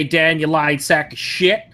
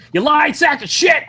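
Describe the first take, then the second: First: Said in the usual way. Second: Yelled high in mock outrage; mock outraged shout. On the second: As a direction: shout it with fake fury. Scolding friend over chat excuse.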